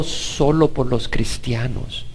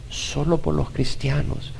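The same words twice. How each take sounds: First: Slowed, quiet. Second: A much softer slow echo; softer, slow repeat. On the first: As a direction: say it softly and slowly. (dicho lento y suave) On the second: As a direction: let it fade almost to nothing. (repetido casi sin voz) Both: Shown as a demonstration.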